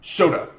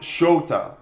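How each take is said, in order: First: The O vowel is short. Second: The O vowel is held long. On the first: The speaker calls it wrong. "it's not Shota" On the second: The speaker calls it right. "S H O with like an elongated vowel"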